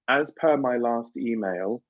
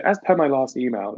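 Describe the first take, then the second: First: Drawn out slowly, each word spaced; slow, pointed work email; slow pointed email line. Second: Lightly sassy email phrase; a hint of polite sass; mildly sassy sign-off. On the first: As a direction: read it slowly like a pointed reminder. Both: Shown as a demonstration. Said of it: "it's, like, sassy".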